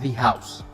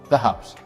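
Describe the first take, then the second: First: It uses the pronunciation meant for vowel sounds. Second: It uses the pronunciation meant for consonant sounds. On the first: The speaker calls it wrong. "not the house" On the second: The speaker calls it right. "consonant, so this is the"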